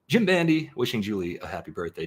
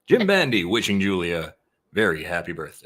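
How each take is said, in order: First: It is read in a plain speaking voice. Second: It is read in a radio announcer voice.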